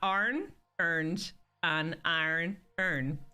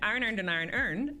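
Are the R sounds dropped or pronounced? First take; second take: pronounced; dropped. First: The R sounds are clearly pronounced. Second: The R sounds are dropped. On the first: The speaker calls it right. "it's supposed to be" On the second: The speaker calls it wrong. "they say"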